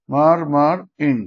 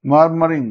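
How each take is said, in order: First: "murmuring" slowly, with gaps between its syllables; split into syllables. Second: Said in the usual way. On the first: Shown as a demonstration. Teacher showing a dactyl, slow and syllable by syllable. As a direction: break "murmuring" into three beats. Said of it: "stress level". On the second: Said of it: "example".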